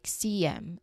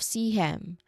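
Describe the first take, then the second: First: The H is dropped and a Y glide links. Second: The H sound is pronounced at the start of him. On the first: "sounding like C M" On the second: "instead of C hem"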